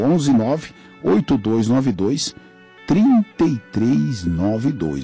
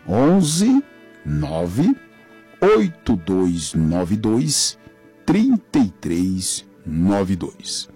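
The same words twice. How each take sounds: First: The number is read at normal speed. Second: The number is read very slowly.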